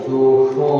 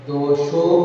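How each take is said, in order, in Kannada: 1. 'sh' ಧ್ವನಿ ಮೂರ್ಧನ್ಯ, ನಾಲಿಗೆ ಹಿಂದಕ್ಕೆ ಮಡಚಿರುತ್ತದೆ. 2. 'sh' ಧ್ವನಿ ತಾಲವ್ಯ, ನಾಲಿಗೆ ಸಪಾಟಾಗಿರುತ್ತದೆ. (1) "ಶ ಬೇರೆ, ಶ ಬೇರೆ" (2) "ದೋಷೋ ಅಲ್ಲ"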